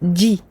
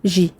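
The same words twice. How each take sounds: First: The consonant begins with a complete stop of sound. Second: The consonant flows without a complete stop of sound. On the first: The speaker calls it right. "Le jim est une lettre shadidah pour laquelle il y a un blocage du son" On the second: The speaker calls it wrong. "Et non pas"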